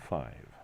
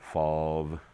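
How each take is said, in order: First: The vowel glides like the standard 'eye' sound. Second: The vowel is a flat, drawn-out 'ah' sound. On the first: It is how the speaker says it when reading. The speaker calls it right. "I pronounce it correctly. I say five" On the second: It mimics how others think the speaker talks. The speaker calls it wrong. "everyone in the world thinks I pronounce the word F I V E as fave, because they all spell it F A H V E"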